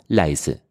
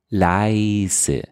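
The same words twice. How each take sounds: First: The diphthong is said short and crisp. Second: The diphthong is drawn out long, Viennese style.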